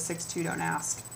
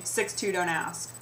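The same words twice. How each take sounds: First: Said in the usual way. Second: Slow, flat "Six two, don't ask"; deadpan slogan; reading the shirt. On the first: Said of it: "a shirt that says". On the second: Shown as a demonstration. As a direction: read the shirt slowly, stress on two. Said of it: "that says literally".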